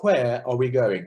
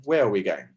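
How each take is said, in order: First: WHERE drawn out with a breathy "hw" at the start; sounded H in where. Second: Said in the usual way. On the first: Shown as a demonstration. Choir clinician showing singers a diction choice, WHERE with a sounded H. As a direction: say "Where" slowly with an audible H before the W. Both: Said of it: "Do you pronounce H's".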